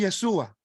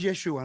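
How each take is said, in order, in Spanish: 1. La consonante del medio es una s simple. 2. La consonante del medio es un sonido sh. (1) "¿De dónde sacan el Sua" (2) "el Shin se pronuncia como un Sh"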